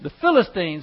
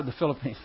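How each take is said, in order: First: "Philistines" said carefully, "FIL-uh-steenz"; "Philistines" put right with a falling tune; corrected word. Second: "Philippines" said in place of "Philistines", quietly; slip of the tongue. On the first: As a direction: fix the slip, landing on "Philistines". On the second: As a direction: trip over the word, saying "Philippines". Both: Real, not acted. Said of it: "got Philippines on my mind".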